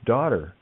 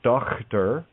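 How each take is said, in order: First: There is no middle consonant sound at all. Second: The middle consonant is a rough throat sound. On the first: The speaker calls it right. "it's daughter" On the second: The speaker calls it wrong. "isn't Dochter"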